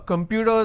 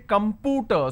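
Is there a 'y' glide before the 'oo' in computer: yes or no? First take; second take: yes; no. First: A 'y' glide comes before the 'oo' sound. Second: No 'y' glide comes before the 'oo' sound. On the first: The speaker calls it right. "so we also have a year sound" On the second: The speaker calls it wrong. "We don't say computer"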